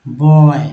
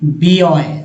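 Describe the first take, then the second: First: The word starts with a plain 'b' sound. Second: The word starts with the letter name 'bee'. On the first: The speaker calls it right. "यहाँ पर जो है बॉय बोलेंगे" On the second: The speaker calls it wrong. "न कि बी ऑय। ऐसा तो नहीं बोलते।"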